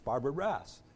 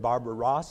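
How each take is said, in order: First: The surname's vowel rhymes with 'ass'. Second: The surname's vowel does not rhyme with 'ass'. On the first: "It's Barbara Rass. ... all three of those well-known writers are asses" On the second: "Is it Barbara Ross"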